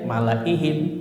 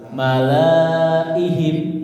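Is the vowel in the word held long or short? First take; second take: short; long. First: The vowel is kept short. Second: The vowel is held long. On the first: This is how it is actually recited. The speaker calls it right. "nyata dibacanya pendek" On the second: This follows the written spelling. The speaker calls it wrong. "Secara tulisan gimana bacanya?"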